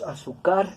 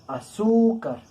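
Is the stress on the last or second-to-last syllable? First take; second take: last; second-to-last. First: The stress is on the last syllable. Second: The stress is on the second-to-last syllable. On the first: The speaker calls it wrong. "no pronunciamos azúcar, así como pronunciamos amar" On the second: The speaker calls it right. "nosotros lo pronunciamos azúcar"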